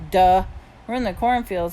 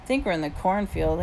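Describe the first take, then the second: First: Mocking echo. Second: Said in the usual way. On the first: A narrator's reading. Boy teasing friend about "cornfield", mocking echo. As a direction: echo "We're in the cornfield" as if it's obvious.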